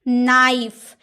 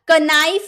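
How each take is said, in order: First: The word starts with an n sound. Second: The word starts with a k sound. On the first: The speaker calls it right. "जैसे नाइफ" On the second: The speaker calls it wrong. "इसलिए इसका कनाइफ नहीं बोलेंगे"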